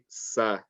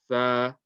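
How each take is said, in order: First: The consonant is a hissing s sound. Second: The consonant is a soft th sound. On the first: The speaker calls it wrong. "very very common mistake is people say sa" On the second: The speaker calls it right. "it's gonna sound nice and soft"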